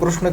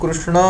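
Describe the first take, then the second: First: The final vowel is short. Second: The final vowel is drawn out very long. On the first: "कृष्ण के नाम में जो अ आया वो ह्रस्व हुआ" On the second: "जिसको हमने बहुत लंबा खींचा है वह जो अ है वह प्लुत अ है"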